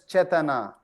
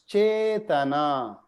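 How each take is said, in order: First: The first vowel is said short. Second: The first vowel is said long. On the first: The speaker calls it wrong. "you can read as Chetana" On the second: The speaker calls it right. "are all long elongated. So even though it says just a, it's actually a"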